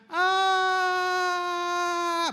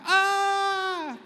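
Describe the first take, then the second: First: High scream falling, then a thud; scream before the fall. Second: High scream after the thud; scream after the fall. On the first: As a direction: scream the whole way down. (sigaw bago bumagsak) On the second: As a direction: land first, then scream. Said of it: "Sa second floor". (sigaw pagkabagsak) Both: Shown as a demonstration.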